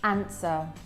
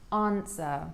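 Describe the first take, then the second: First: The A vowel is short and clipped. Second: The A vowel is long and drawn out. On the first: "it's a short A sound. He says" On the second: "and I would say answer"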